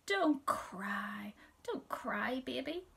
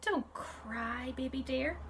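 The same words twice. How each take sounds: First: Put-on mother soothing a hurt baby; kind, soothing. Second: Gentle, kind comfort; kind, soothing. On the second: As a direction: soothe the little one tenderly. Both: A narrator's reading. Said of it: "in a kind, kind voice".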